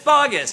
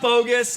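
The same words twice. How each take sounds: First: The name is pronounced just as it is spelled. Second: The name is not pronounced as it is spelled. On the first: The speaker calls it right. "just like it's spelled" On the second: The speaker calls it wrong. "it's not bogus"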